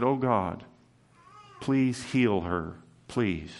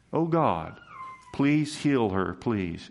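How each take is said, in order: First: Soft, slow plea fading to a hush; pleading cry. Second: Pleading prayer. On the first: Moses pleading for Miriam, a soft mild cry. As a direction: beg God gently, trailing off on the last please. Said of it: "Moses cried and said". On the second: Moses's prayer repeated to the church, mildly pleading. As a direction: lift the plea a little, then let the last please drop. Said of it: "That was his prayer". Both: Retold or imitated.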